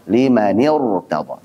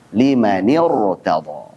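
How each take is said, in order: No difference in how they are said.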